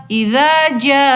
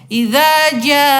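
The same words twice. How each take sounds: The two takes are said the same way.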